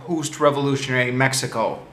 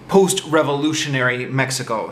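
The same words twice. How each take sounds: First: The words are slurred and unclear. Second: The words are carefully and clearly articulated. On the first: The speaker calls it wrong. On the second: The speaker calls it right.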